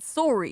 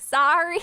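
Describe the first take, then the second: First: It is said with a Canadian vowel. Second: It is said with a Southern American vowel. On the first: "Sometimes my Canadian shows... I said sorry" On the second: "even though I was Southern as fuck, I didn't say sorry"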